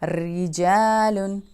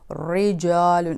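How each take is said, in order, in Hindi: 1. r की आवाज़ पतली और हल्की है। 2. r की आवाज़ भारी और भरी हुई है। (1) "हम पढ़ेंगे" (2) "हम इसको ऐसे नहीं पढ़ेंगे"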